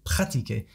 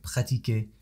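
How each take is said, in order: First: One syllable gets a strong English-like stress. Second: The syllables are evenly weighted. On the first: The speaker calls it wrong. "he borrows that from practice in English" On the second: The speaker calls it right. "it needs to be much more leveled out"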